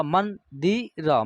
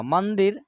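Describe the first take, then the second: First: मंदिर said very slowly; slow demo word. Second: Said in the usual way. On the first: Shown as a demonstration. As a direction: drag out मंदिर with clear n. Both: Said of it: "यहाँ न का उच्चारण होगा".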